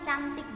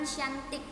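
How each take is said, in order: First: The word begins with a 'ch' sound. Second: The word begins with a 'sh' sound. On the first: The speaker calls it right. "ya kamu bilang cantik" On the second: The speaker calls it wrong. "jangan syantik"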